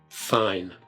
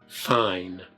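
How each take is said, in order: The two takes are said the same way.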